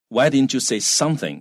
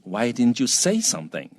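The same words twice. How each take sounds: First: The stress falls on something instead. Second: The stress falls on say; something drops. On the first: The listener should have said a particular thing. "那个 something 就是你假你认为对方应该要说某个东西" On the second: Why did the listener stay silent? "那 something 就掉下去了，那重一点在那个 say 上面啊"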